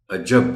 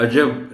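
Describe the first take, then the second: First: عجب with a leaned-on j, aj-JAB; stress on jeem. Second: عجب with a light, unstressed j, a-jab; wrong pronunciation. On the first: Teacher correcting عجب, extra weight on the ج. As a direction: push the second syllable of عجب. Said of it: "جیم پر تھوڑا سا زور". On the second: Teacher showing what not to say, عجب with a weak j. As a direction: say عجب without leaning on the ج. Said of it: "نہیں بولنا اس کو". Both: Shown as a demonstration.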